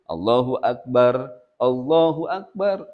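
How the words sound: A pause separates phrases, final r unvoweled. "Mun terpisah Allahu Akbar, jeda dulu"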